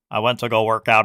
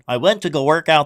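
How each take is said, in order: First: It is said in an imitated, put-on voice. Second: It is said in the speaker's ordinary voice.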